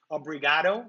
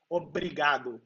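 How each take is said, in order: First: "obrigado" with an English-style R and a final oh; foreigner's rolled R. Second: "obrigado" with a short tapped R, ending in oo; drier R. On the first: Brazilian shows foreigners their mistake, "obrigado" with an English-style R. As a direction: say "obrigado" as English speakers would, heavy R. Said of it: "we don't roll the R's like you guys do". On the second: Brazilian teaches viewers "obrigado" with a dry, tapped R. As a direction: tap the R lightly in "obrigado", Brazilian style. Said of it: "with this drier R". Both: Shown as a demonstration.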